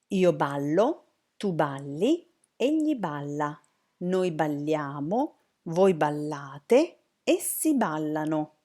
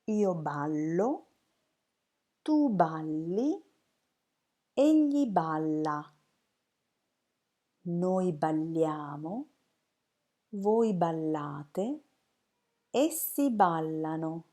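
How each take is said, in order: First: It is said more fluently, at moderate speed. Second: It is said slowly and carefully.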